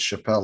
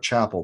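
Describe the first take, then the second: First: Chappelle stressed on the second syllable; correct name pronunciation. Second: Chapel stressed on the first syllable; spelling-based pronunciation. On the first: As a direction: say Chappelle as shuh-PELL, like Dave Chappelle. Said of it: "I'm saying that name right". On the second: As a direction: say Chapel like the church word, CHAP-ul. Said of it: "it might look like Chapel". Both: Shown as a demonstration.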